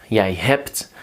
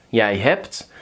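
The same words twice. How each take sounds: The two takes are said the same way.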